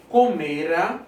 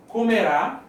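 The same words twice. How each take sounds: First: "Comera" with a drawn-out ME; stress on the middle syllable. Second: "Comerá" landing on a rising RÁ; stress on the last syllable. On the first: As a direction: say "Comera" as co-ME-ra, last syllable weak. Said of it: "não tem acento". ("Comera" com a tônica no ME) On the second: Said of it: "tem um acento". ("Comerá" com a tônica no RÁ final) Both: Shown as a demonstration.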